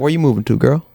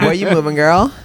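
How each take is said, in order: First: It is said in an imitated black guy voice. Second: It is said in a voice that sounds gay.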